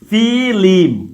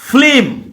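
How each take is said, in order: First: An extra i vowel separates the l and m. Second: The l and m are joined with no vowel. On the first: "ফিল্মকে যদি বলি আমরা ফিলিম"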